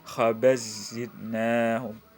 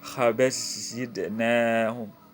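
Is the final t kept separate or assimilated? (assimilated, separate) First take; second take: assimilated; assimilated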